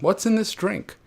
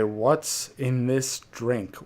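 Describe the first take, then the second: First: It sounds lightly curious and relaxed. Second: It sounds worried and suspicious. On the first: The speaker simply wonders what the drink contains. "like hmm, what's in this drink" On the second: The speaker fears something was put in the drink. "or you could say what's in this drink"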